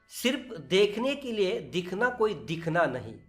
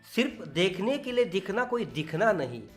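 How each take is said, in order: The two takes are said the same way.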